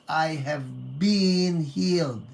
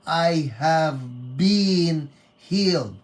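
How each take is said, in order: First: "been" held and stressed, slow; slow, weighted "been". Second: Been leaned on, slow and louder; slow "I have been healed" with weight on "been"; stress on been. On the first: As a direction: lean into "been" as a model. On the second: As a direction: press hard on "been". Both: Shown as a demonstration. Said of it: "Emphasis on been".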